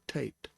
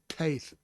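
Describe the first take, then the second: First: The word ends with a hard t sound. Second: The word ends with a breathy th sound. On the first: The speaker calls it wrong. "and not tate" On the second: The speaker calls it right. "notice I said taith"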